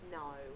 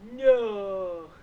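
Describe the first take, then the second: First: The vowel is clipped short, Kent army-style. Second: The vowel is dragged out long.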